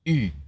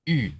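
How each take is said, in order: The two takes are said the same way.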